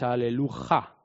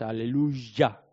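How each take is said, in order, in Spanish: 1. La última sílaba empieza con un sonido h aspirado. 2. La última sílaba empieza con un sonido y. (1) "no decís aleluja" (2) "es aleluya"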